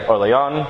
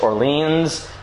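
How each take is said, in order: First: The name is said with French pronunciation. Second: The name is said with English pronunciation. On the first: "In French would be like Orléans" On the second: "what we would call in English Orleans"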